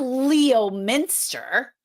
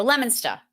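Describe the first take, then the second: First: Leominster spelled out as "Lee-oh-minster"; wrong outsider pronunciation. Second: Leominster said as "LEM-in-ster"; correct local pronunciation. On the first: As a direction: Leominster in three careful syllables, "LEE-oh-MIN-ster". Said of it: "You don't go to Leominster". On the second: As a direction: Leominster with a short "lem" at the start. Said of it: "You go to Leominster". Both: Shown as a demonstration.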